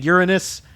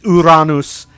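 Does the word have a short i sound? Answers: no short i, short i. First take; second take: short i; no short i. First: A vowel sounds like a short i. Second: No vowel sounds like a short i. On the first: It reflects a regional habit. The speaker calls it wrong. "where it sounds like a short I" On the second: It follows the Latin pronunciation. The speaker calls it right. "that is the correct pronunciation"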